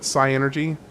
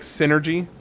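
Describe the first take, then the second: First: It begins with 'sigh', then energy. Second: It begins with 'sin', like synergy. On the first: "I just called it Psyenergy, but like psychology" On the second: "I think it's pronounced like, okay, hold on, like synergy"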